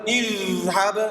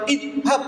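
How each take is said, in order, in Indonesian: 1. Bunyi dh mengalir dengan gesekan yang lembut. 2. Bunyi dh berhenti tiba-tiba tanpa gesekan.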